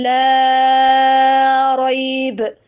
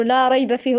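First: لا ريب with the لا stretched very long and louder; long madd. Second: Said in the usual way. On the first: Shown as a demonstration. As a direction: hold the vowel of لا ريب long, slow and strong. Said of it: "هو يقول". (مد طويل جدا في لا ريب) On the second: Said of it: "احنا نقوله".

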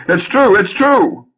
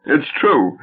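First: Loud, much higher wail of shame; loudly abject. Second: Said in the usual way. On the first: Acted. Husband confessing to his wife, loud abject wail. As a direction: beg for pity at full volume. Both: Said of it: "Felix, loudly abject".

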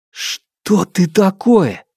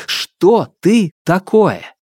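First: Higher, slow frightened question; frightened demand. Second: «ты» pressed high and slow; stress on ТЫ. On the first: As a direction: ask it slow and high, afraid. Hero confronts the darkness. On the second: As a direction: lean on «ты» in «что ты такое». Hero insists on the question. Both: Acted.

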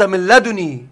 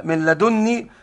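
First: "لدني" said ladunī, nun not doubled; slow recited "لدني" with one light n; light single nun. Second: "لدني" said ladunnī, nun held double; careful recited "لدني" with a heavy double n; doubled nun. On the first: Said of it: "وجاءت مخففة". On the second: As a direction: lean slowly on the geminated n in "لدني". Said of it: "بالتشديد على النون". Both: Shown as a demonstration.

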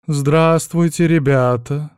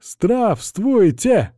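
First: Slow, louder languid greeting; sultry voice. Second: High, drawn-out group bark; barked greeting. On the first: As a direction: drawl it out seductively. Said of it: "излишне томным голосом". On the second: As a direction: bark it like soldiers. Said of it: "гаркнули". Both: Acted.

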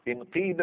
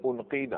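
First: انقيد said "inqiida"; kasra on hamza. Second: انقيد said "unqiida"; damma on hamza. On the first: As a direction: open انقيد on an "i" sound. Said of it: "اذا نكسر همزه الوصل". (انقيد بهمزة مكسورة) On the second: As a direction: open انقيد on a "u" sound. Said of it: "دائما الهمزه الوسط تتبع حركه". (انقيد بهمزة مضمومة) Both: Shown as a demonstration.

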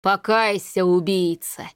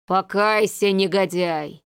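First: Cold, hollow voice of the dead; cold hissing layered whisper. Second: Theatrical howling. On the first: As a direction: command like an avenging ghost. Corpse demands repentance. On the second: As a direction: ghostly voice with drawn-out wails. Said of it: "с театральными подвываниями". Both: A narrator's reading.

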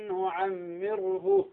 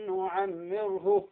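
First: نعمره with the ghunna stretched too long; exaggerated ghunna, wrong. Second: نعمره with the ghunna held just two counts; measured, unforced nasal hold in نعمره; correct two-count ghunna. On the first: Teacher showing the wrong overlong ghunna. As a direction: overdo the nasal hold in نعمره as the mistake. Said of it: "خطأ". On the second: Teacher giving the corrected reading. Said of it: "لا، مقدار حركتين". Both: Shown as a demonstration.

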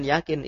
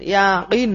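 First: "yakin" with an everyday Indonesian k and short vowels; "yakin" the Indonesian way, no throaty q; ordinary k pronunciation. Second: "yakin" with the k made as a throaty Arabic qaf, second vowel held long; slow, emphatic "yakin" with Arabic q; Arabic qaf pronunciation. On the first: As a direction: say "yakin" quickly with a front k, unstressed. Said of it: "Bukan yakin". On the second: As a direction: stretch "yakin" into ya-qiin, louder, q from the back of the throat. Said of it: "yakin pakai qaf". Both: Shown as a demonstration.

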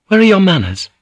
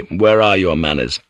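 First: High, loud, punching are; high indignant scold. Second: Lower, sour, stressing where; sour mockery. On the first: Priest scolding guards, high and indignant. Priest's rebuke, first take. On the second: Senior samurai mocking his comrade, sour. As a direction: mutter it back sourly with weight on where. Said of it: "the senior samurai said sourly". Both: A narrator's reading.

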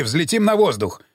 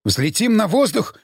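First: Said in the usual way. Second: Higher, incredulous echoed question; mild mock yell. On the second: A narrator's reading. Prisoner echoing a threat of explosion, a restrained yelp. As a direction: throw it back as an understated outcry. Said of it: "завопил Смиглый".

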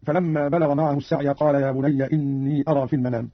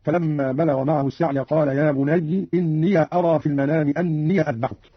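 First: Said in the usual way. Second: "يا بني" ending in an i sound, bunayyi; Qalun's kasra on ya. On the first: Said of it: "قرأ قالون". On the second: Shown as a demonstration. Teacher demonstrating Qalun, "بني" read bunayyi with kasra. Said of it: "قرأ قالون بكسر الياء هكذا".

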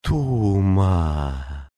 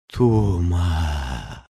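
First: Tender, coaxing undead call; softer witch call. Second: Rasping witch call. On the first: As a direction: coax him softly like a corpse. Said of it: "Голос её стал нежнее". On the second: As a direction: rasp the name like a corpse. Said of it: "захрипела она". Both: A narrator's reading.

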